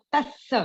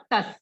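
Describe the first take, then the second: First: तस्स with the त pressed hard and a held double स; तस्स, geminated, with pressure on त; doubled स. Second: तस with a short single स and no pressure; तस, plain single consonant. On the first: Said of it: "हमें उसको तस्स बोलना है, हमें त पे थोड़ा प्रेशर डालना है". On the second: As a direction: say तस light and short. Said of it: "और तस". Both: Shown as a demonstration.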